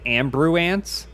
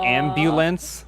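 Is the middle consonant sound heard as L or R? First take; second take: R; L. First: The middle consonant is pronounced as an R. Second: The middle consonant is pronounced as an L. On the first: This is how it was said as a child. The speaker calls it wrong. "I said ambruance instead of" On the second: This is the standard form of the word. The speaker calls it right. "instead of an"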